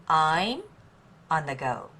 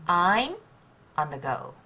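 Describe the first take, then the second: The two takes are said the same way.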